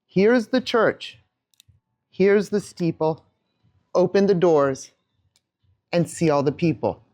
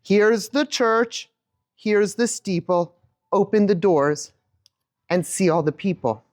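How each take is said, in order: First: Slow sing-song rhyme; nursery rhyme. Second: Slow sing-song rhyme; nursery rhyme with the audience. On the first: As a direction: recite it slowly while showing the hands. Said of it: "watch my hands as I do this". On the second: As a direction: lead the room through it slowly. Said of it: "do it with me again". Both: Shown as a demonstration.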